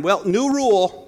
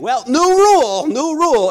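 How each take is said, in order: First: Said in the usual way. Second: Mock sore-loser father-in-law. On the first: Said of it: "My father-in-law growing up would tell". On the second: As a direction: ham up a cheating dad changing the rules. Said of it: "and he'd be losing".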